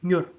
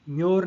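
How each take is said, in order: First: म्योर as one quick, short syllable; short, rapid म्योर; quick reading. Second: म्योर with a long, stretched vowel, louder; म्योर dragged out slowly; drawn-out wrong reading. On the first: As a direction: say म्योर fast without lengthening the vowel. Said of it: "इसको तेज पढ़ना है". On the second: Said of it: "लंबा नहीं पढ़ना है". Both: Shown as a demonstration.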